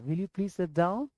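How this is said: It is said in a soft, gentle tone. The speaker calls it right. "आराम से बोलना"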